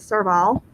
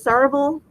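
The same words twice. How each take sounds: First: It is said in a British accent. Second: It is said in an American accent.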